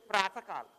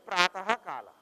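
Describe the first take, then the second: First: The word has no extra syllable after 'Prata'. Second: The word has an extra 'ha' syllable after 'Prata'. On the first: The speaker calls it right. "when they say Pratakala" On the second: The speaker calls it wrong. "we don't say Pratahakala"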